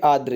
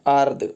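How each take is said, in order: First: आर्द्र said as aadr, r after d; correct form aadr. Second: आर्द्र said as aard, r before d; wrong form aard. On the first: Teacher showing the right word, आर्द्र as aadr. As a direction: close आर्द्र on a dr cluster. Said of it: "ये सही है". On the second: Teacher showing the mistake, आर्द्र said as aard. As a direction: drop the final r of आर्द्र. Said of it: "ये गलत है ना". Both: Shown as a demonstration.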